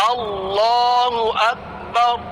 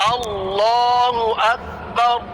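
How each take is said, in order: The two takes are said the same way.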